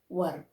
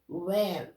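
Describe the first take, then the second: First: The vowel sounds like 'er', as in fur. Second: The vowel sounds like 'air', as in where. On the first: The speaker calls it right. "You need to tell were" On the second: The speaker calls it wrong. "Some people tell this one as where"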